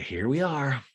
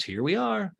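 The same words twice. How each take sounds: First: Nearer the speaker's own pitch, dry echo; mock flat echo. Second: Higher, lightly awkward imitation; mock awkward Austin. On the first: [name] echoing Austin's awkward greeting, flat. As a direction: hand it back flatly. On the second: Austin sitting awkwardly beside [name], higher awkward. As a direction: say it like an uneasy guy.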